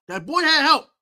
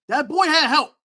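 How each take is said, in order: First: Had leaned on; second take stressing had. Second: Put-on boy leaned on; first take stressing boy. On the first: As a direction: hit the word had, insisting. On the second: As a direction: hit the word boy. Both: Shown as a demonstration.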